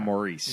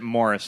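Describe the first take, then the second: First: The name sounds like Maurice. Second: The name sounds like Morris. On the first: The speaker calls it wrong. "instead of Maurice" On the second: The speaker calls it right. "correctly pronounce it Morris"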